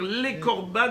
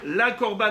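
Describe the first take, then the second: First: The first vowel is a short 'e' sound. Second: The first vowel is a full 'a' sound. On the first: It means like a sacrifice. The speaker calls it right. "il faut lire les korban avec sheva" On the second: It means not a sacrifice. The speaker calls it wrong. "Il ne faut pas lire la korban avec patah"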